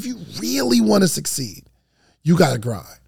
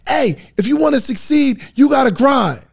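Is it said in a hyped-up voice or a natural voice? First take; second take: natural; hyped-up. First: It is said in his own natural, intense voice. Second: It is said in a loud, hyped-up motivational voice.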